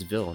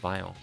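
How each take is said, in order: First: The vowel is short, rhyming with fill. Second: The vowel is long, rhyming with file. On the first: The speaker calls it right. "That's Ville, not Vile. There's two L's" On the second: The speaker calls it wrong. "How do you see this and say Vile?"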